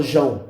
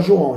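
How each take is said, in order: First: "João" squeezed into one syllable, JÃO; local contracted pronunciation. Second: "João" in two syllables, jo-ÃO; full standard pronunciation. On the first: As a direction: drop the first "o" of "João", saying JÃO. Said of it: "a gente fala João". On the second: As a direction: sound the "o" before the nasal ending in "João". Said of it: "Aqui a gente não fala João". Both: Shown as a demonstration.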